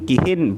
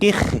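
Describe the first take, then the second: First: The word ends with an added -in. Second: The word ends on a bare consonant. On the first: "dan boleh ditanwin" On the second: "baik dibaca sukun"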